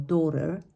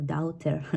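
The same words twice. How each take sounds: First: Daughter as DAW-ter, one short vowel; correct short vowel. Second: Daughter as DOW-ter, every vowel sounded; learner's mispronunciation. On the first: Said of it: "just a very short sound". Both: Shown as a demonstration.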